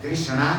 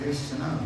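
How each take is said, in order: First: कृष्णा with an extra vowel after the sh; wrong pronunciation of कृष्णा. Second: कृष्णा with sh and n joined, softer; correct pronunciation of कृष्णा. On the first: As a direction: break up the cluster in कृष्णा, as kri-sha-na. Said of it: "नहीं बोलना है". (कृष्णा का गलत उच्चारण, ष और ण अलग-अलग) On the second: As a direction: model कृष्णा as krish-naa, softly. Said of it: "कृष्णा नहीं बोलना है". (कृष्णा का सही उच्चारण, ष्ण जुड़ा हुआ, धीमे से) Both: Shown as a demonstration.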